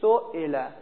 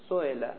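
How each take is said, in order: First: The glottal stop is clearly and fully pronounced. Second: The glottal stop is softened, between stop and vowel. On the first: "اگه بخواید با همزه تلفظ کنید چی میگید؟ میگید سوئله، یعنی همزهش قشنگ معلومه" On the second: "اگر بخواید بین بین تلفظ کنید سوئله"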